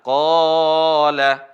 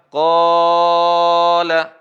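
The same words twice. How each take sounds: First: The long vowel is held for two beats. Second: The long vowel is held for four beats. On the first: "Dua harokat hanya dua ayunan" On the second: "Kalau empat harokat"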